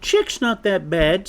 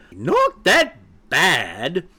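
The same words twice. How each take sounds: First: Higher-pitched, mild pleading chick; protesting young chick. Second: High, slow, incredulous echo; squawk. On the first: Acted. Chick defends friend to mother, protesting. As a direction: stick up for a friend, voice raised in pitch. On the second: A narrator's reading. Mother hen echoes chick's defence, squawking. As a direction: throw it back in drawn-out disbelief. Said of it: "squawked Sapphira even louder".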